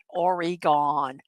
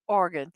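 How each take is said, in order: First: Every syllable of the name is carefully enunciated. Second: The name is said quickly with reduced syllables. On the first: The speaker calls it wrong. "not Oregon" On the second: The speaker calls it right. "You just say it. You don't have to enunciate everything"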